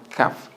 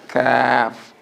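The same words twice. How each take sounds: First: The vowel in the middle is short. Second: The vowel in the middle is prolonged. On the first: The speaker calls it wrong. "not kaf" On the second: The speaker calls it right. "but kaf"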